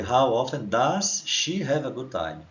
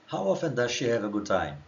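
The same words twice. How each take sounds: First: Very slow, every word spelled out for students; slow model reading. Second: Said in the usual way. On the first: Shown as a demonstration. Teacher reading the question slowly to students. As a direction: read it slowly for the class to copy. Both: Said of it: "Então a pergunta aqui em cima já foi".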